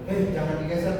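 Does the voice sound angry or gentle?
angry. It is said in an angry tone. The speaker is scolding someone. "contoh kita marah kepada seseorang"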